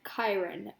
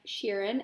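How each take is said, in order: First: The name starts with a k sound. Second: The name starts with an sh sound. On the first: The speaker calls it right. "it turns out we pronounce it like Kyron" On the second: The speaker calls it wrong. "I've been pronouncing it like Sheeran"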